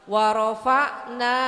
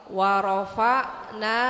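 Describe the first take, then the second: No difference in how they are said.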